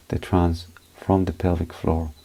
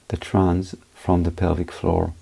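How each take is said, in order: Both takes have the same delivery.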